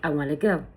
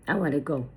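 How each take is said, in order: First: Want to is reduced, sounding like wanna. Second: Want to is fully pronounced as two words. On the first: This is natural fast speech. "may sound like" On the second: This is formal speech. "in formal speech"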